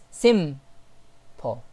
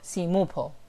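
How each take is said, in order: First: The M is held with no following vowel. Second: An extra u vowel follows the M sound. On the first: The speaker calls it right. "It's simple. So here we can see that the sound stays on the letter M and pauses there" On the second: The speaker calls it wrong. "or simupo"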